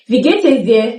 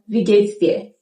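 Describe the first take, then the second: First: Geht and es are pronounced separately. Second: Es shrinks to an s joined to geht.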